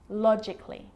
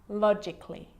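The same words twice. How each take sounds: The two takes are said the same way.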